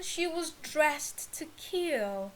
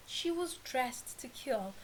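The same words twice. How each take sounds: First: Slow, deliberate read of "dressed to kill"; slow model read. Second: "She was dressed to kill" said again, softer and settled; softer repeat. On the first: Teacher presenting the idiom to students, slow and deliberate. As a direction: spell "she was dressed to kill" out slowly for the class. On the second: Teacher repeating the idiom for learners, quieter. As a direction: repeat it quietly to let it sink in. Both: Shown as a demonstration. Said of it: "Next one".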